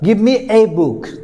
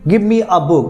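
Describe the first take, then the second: First: The article is a full, stressed 'ay' sound. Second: The article is a short, unstressed 'uh' sound. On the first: The article is being emphasized. "जब जोर देके बोलेंगे आप" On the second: This is the normal, unemphasized way of saying it. "जो बिना जोड़ कर normally जब कहेंगे तो आ होगा"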